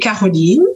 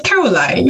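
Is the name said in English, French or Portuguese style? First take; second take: French; English. First: The name is said the French way. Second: The name is said the English way.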